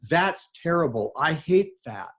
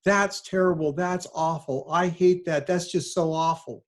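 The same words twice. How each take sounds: First: Mock dismay. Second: Higher, hammed-up gasp of disgust; mock horrified relativist. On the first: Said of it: "they've replied". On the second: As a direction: play the shocked friend who dodges the question. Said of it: "this is how it always sounds".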